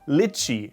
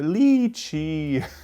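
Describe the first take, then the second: First: The vowel is kept short. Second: The vowel is drawn out long. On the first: The speaker calls it right. "Lychee is correct" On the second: The speaker calls it wrong. "Like very long vocal here, lychee. But that is not correct"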